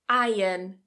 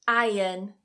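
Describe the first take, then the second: Both takes have the same delivery.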